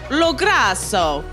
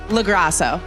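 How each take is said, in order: First: It is said the Italian way. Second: It is said the American way.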